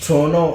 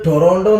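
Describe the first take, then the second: First: It is squeezed to two syllables without the t. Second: All three syllables are pronounced, including the t. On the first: The speaker calls it right. "Actually it's pronounce ട്രോണോ" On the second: The speaker calls it wrong. "അത് ടൊറോണ്ടോ എന്നല്ല"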